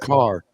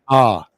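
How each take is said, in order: First: The R at the end is pronounced. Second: The R at the end is dropped. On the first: "they don't say car" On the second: "They say ah, ... They drop it"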